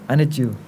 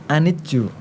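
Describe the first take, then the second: The two takes are said the same way.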